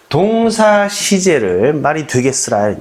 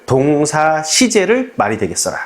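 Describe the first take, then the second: First: Slow, measured rule for memorizing; slow chant-like rule; memorize rule. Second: Slow, deliberate repetition of the rule; a slow, steady drill of the rule; repeat rule. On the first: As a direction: say it slowly like a slogan to memorize. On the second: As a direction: repeat it slowly so it sticks. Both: Shown as a demonstration. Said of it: "외웁시다".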